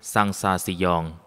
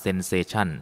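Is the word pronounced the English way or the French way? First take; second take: French; English. First: The word is pronounced with French sounds. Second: The word is pronounced with English sounds. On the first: "ฝรั่งเศสอ่านว่า" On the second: "อังกฤษอ่านว่า"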